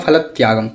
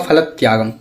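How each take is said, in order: First: It is read Sanskrit-style, stressing the joined consonants. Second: The same.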